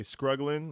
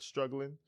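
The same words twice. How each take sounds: First: Scruggling with an sc sound where struggling has st; scruggling as North Carolina folks say it; local mispronunciation. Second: Said in the usual way. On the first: Retold or imitated. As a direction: say scruggling, sc instead of st. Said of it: "They say scruggling". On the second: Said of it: "not struggling".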